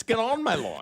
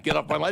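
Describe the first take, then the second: First: The word on pushed higher; stress on on. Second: Said in the usual way. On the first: Shown as a demonstration. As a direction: lean on the word on instead of off. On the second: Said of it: "That's not".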